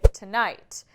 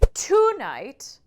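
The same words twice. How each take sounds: First: The stress is on the second syllable. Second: The stress is on the first syllable. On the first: The speaker calls it right. "It naturally goes to that second syllable" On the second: The speaker calls it wrong. "you're not going to say tonight"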